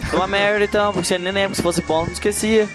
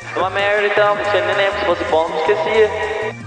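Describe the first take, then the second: First: The voice is plain, without echo or effects. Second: The voice has echo and vintage effects added.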